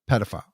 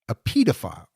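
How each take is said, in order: First: It is said in an American accent. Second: It is said in a British accent.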